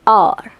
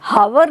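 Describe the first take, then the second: First: The word begins with a vowel sound. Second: The word begins with an h sound. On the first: The speaker calls it right. "अ, sound किसका है? अ का" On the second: The speaker calls it wrong. "हावर नहीं है"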